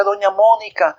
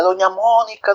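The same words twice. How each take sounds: First: High urgent call; calling from afar. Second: High distant call; calling from afar. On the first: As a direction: shout her name from down the road. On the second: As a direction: call the neighbour from far off. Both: A narrator's reading. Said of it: "gritando desde lejos decía".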